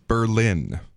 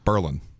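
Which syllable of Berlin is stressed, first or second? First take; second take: second; first. First: The stress is on the second syllable. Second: The stress is on the first syllable. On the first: It names the city in Germany. "The one in Germany is Berlin" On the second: It names the local town. "whereas the one here is Berlin"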